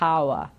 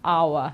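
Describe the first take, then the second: First: The first H sound is pronounced. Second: The first H sound is silent. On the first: The speaker calls it wrong. "Never say hour" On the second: The speaker calls it right. "the one to remember, I think it's our"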